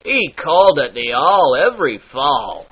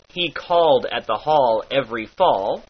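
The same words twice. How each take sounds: First: "called", "hall", "fall" with a light lilt; lilted all. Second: Said in the usual way. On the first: Shown as a demonstration. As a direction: give a little music to each "all". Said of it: "slightly lilted". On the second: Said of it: "turns into".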